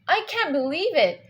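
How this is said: It sounds surprised, rising then falling slightly. The speaker is amazed by the news. "That's more emotion. We see a rise and then a small fall"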